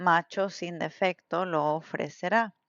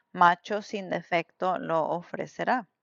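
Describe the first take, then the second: No difference in how they are said.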